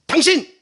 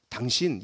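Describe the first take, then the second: First: 당신 high, loud and scornful; contemptuous. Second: Said in the usual way. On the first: Shown as a demonstration. Preacher showing how the woman said 당신 to Jesus, contemptuous. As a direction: spit out 당신 as a sharp insult. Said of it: "이런 얘기예요". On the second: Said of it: "이게 아닙니다".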